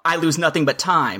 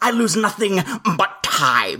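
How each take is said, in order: First: It is said in a plain voice. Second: It is an exaggerated impression of Krennic.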